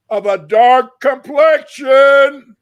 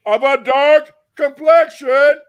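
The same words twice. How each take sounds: First: Complexion slow and loud, falling; stress on complexion. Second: Complexion repeated loud with a questioning rise. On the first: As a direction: lean hard on complexion. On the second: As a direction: repeat it as if asking. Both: Shown as a demonstration.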